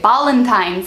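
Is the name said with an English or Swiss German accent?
Swiss German. It is said with a Swiss German accent.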